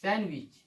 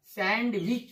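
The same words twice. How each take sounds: First: "सैंडविच" said san-wich, no D; silent D. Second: "सैंडविच" with the D fully sounded, sand-wich; wrong pronunciation. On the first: Teacher modelling the right reading, silent D. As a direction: drop the D in "सैंडविच". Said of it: "क्या पढ़ते हैं अपन?". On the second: Teacher showing how people misread it, wrong pronunciation. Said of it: "जो कि गलत है।". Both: Shown as a demonstration.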